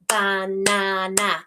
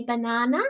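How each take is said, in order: First: "Banana" slow, ba, na, na; syllable segmenting. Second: Said in the usual way. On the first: Shown as a demonstration. Teacher models breaking up syllables, "Banana" slow and even. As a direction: split "Banana" into three equal syllables. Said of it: "break it up into the syllables". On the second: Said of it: "Can you clap and say".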